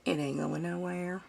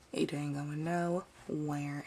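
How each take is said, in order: First: Said in the usual way. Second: Drawn out slowly and a bit lower; slow emphatic repeat. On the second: Shown as a demonstration. Repeating it to viewers about the glued fabric, slow and emphatic. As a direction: stretch every word to make the point.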